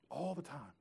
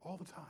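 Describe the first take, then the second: First: Dropping the volume on the repeat; softer repeat. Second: "All the time." barely voiced, a trailing hush; almost silent final repeat. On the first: Preacher repeats it softly to the congregation. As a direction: let "All the time." sink, a little softer. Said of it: "repeats the phrase, fading". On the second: Preacher lets the phrase fade to near silence. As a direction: let it die away to almost nothing. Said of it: "third time, fading to near silence". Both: Real, not acted.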